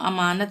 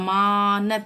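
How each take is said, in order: First: The second syllable's vowel is short. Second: The second syllable's vowel is drawn out. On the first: The speaker calls it right. "हम खींच कर नहीं बोल रहे हैं, अमानत बोल रहे हैं" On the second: The speaker calls it wrong. "हम अमानत ऐसे नहीं बोल रहे ना"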